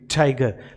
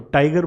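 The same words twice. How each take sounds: First: The T is made at the gum ridge. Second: The T is made further back, near the palate. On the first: The speaker calls it right. "यहाँ teeth ridge पे रख के बोला जाता है ठ, इस तरीके से जैसे हम बोलेंगे टाइगर" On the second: The speaker calls it wrong. "हम तो टाइगर बोलते हैं, तो हमारा टाइगर तो बिल्कुल ऊपर की तरफ होता है"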